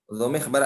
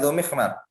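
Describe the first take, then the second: First: The last syllable begins with a b sound. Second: The last syllable begins with an m sound. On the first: "dibaca dengan huruf ba" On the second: "tadi Dzumikhmar dengan mim"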